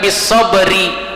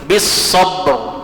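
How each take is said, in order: First: The word ends with an added i vowel. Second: The word ends on a silent r sound. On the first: The speaker calls it wrong. "jangan kita baca bisobri" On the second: The speaker calls it right. "Jadi rohnya ini tetap tabkhim"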